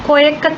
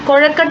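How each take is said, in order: First: The middle consonant is a 'y' sound. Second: The middle consonant is the retroflex 'zh' sound. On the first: This is the regional way people say it. "പ്രാദേശികമായി ഉച്ചരിക്കുന്ന" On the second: This is the standard form of the word. "കൊഴക്കട്ട എന്ന പദമല്ല"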